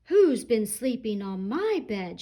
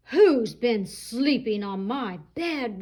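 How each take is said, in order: First: Lightly voiced mama bear; firm middle voice of a mother; medium mama rhino. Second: Slow, mildly booming papa rhino; great big Daddy Rhino voice. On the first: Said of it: "shouted Mama Rhino in her medium-sized voice". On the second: Acted. Daddy Rhino looking at his bed, slow mild roar. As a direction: draw it out big and heavy like a rhino dad. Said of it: "roared Daddy Rhino in his great big voice".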